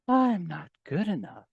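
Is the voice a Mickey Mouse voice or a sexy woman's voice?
sexy woman. It is said in a sexy woman's voice.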